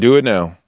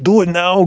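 First: It is said in the speaker's ordinary voice. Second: It is said in an imitated heavy-accented action-hero voice.

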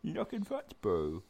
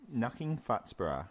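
First: It is said in a put-on New Zealand accent. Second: It is read in the speaker's ordinary accent.

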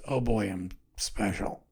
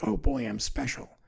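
First: It sounds gloomy and sarcastic about being special. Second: It sounds pleased and upbeat about being special.

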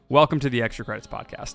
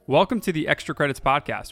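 First: It is said calmly, like an NPR host. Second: It is said with lots of energy.

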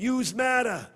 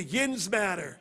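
First: It is said in a Brooklyn accent. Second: It is said in a Pittsburgh accent.

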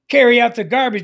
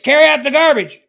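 First: It is said at a normal volume. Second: It is said in a raised voice. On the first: It is the first ordinary request. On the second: The request is repeated more insistently.

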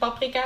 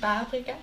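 First: The stressed 'a' vowel is short. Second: The stressed 'a' vowel is long. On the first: The speaker calls it right. "Dat het paprika is" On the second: The speaker calls it wrong. "en niet paprika"

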